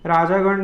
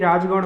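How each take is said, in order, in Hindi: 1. raj के बाद दीर्घ 'aa' स्वर बोला जाता है। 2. raj और gan के बीच कोई स्वर नहीं बोला जाता है। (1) "नहीं" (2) "होता है"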